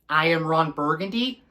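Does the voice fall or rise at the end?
rise. The voice rises at the end like a question.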